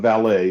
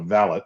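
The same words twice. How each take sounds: First: The stress is on the last syllable. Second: The stress is on the first syllable.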